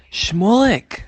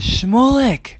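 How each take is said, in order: First: High, loud cry of the name; rebbe yelling. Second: High, loud cry of welcome; joyful shout. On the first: The Baal Shem Tov spots Shmulek in the crowd, yelling. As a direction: call him out in a sudden high shout. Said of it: "Why did the Baal Shem Tov yell at him?". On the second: The Baal Shem Tov spotting Shmulek, delighted shout. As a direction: hail a long-awaited guest by name. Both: Acted.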